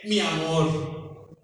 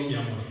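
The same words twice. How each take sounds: First: Slow, lingering mi amor; tender endearment. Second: Said in the usual way. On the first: Retold or imitated. Ana teaching the pastor to say mi amor to his wife, slow and tender. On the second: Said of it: "Hoy le digo".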